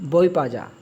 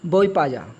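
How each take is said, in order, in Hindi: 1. आख़िरी दो शब्द मिलकर एक हो जाते हैं। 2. आख़िरी दो शब्द मिलकर एक हो जाते हैं।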